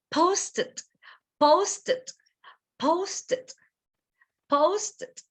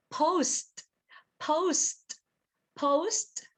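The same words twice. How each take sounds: First: "Post it" as posted, high on the first syllable; two-syllable POS-ted for "Post it", pitched high; final ED sound. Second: "post" high, one syllable with released t; short, higher "post" with clear t; final sound. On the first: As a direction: add a light unstressed "id" after "Post". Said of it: "the final sound". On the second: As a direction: lift "post" and finish on a crisp st. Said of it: "What is it going to be the final sound?". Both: Shown as a demonstration.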